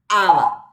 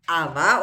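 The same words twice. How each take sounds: First: The stress is on the first syllable. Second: The stress is on the last syllable. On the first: It means hair. "porque lleva acento en la primera vocal" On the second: It means something else. "Aba otra cosa"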